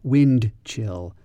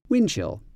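First: The D at the end of wind is pronounced. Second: The D at the end of wind is dropped. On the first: "I pronounced it in a very careful way there" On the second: "We don't really pronounce the D"

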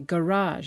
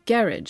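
First: The word carries the American stress pattern. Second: The word carries the British stress pattern. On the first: This is how Americans say it. "whereas we Yanks say" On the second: This is how the British say it. "The British, for example, say"

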